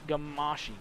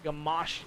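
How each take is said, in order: First: The name ends with a final vowel sound. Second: The name ends without a final vowel sound. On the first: The speaker calls it wrong. "or you do pronounce the e" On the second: The speaker calls it right. "you don't pronounce the e"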